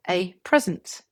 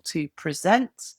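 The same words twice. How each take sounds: First: A PREsent, weight on the first syllable; stress on first syllable. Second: To preSENT, weight on the last syllable; stress on second syllable. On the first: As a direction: say present as a noun, PREsent. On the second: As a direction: say present as a verb, preSENT, slowly. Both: Shown as a demonstration. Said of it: "Different stress, different meaning".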